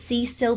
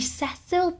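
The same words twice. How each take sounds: First: The name is said the American way. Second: The name is said the British way. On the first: "They all pronounced it Cecil, but they were all American" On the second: "to us Brits it'd be Cecil"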